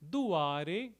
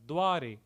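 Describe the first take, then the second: First: It is said in the old verse form. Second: It is said in the typical Hindi form.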